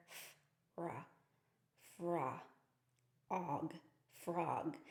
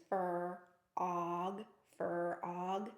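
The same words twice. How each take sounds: First: F, ra, fra, og, then frog, slowly sounded out; sounding out frog. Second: Fur, og said as two separate chunks; fur... og, no blend; split into fur and og. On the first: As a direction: segment each sound, then blend into frog. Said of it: "the importance of teaching our blends". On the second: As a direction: break the blend wrongly into fur and og. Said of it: "they can't really hear the word frog". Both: Shown as a demonstration.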